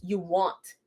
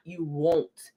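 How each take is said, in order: First: "want" said with an open ah vowel, wahnt; correct want. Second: "won't" said slowly with a long o, wohnt; wrong won't. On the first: Correcting her sister's text, "want" said as wahnt. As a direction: say "want" rhyming with haunt, not won't. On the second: Mocking her sister's typo, slow "won't" with a long o. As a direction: drag out "won't" like the misspelling. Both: Shown as a demonstration. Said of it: "you put the wrong want".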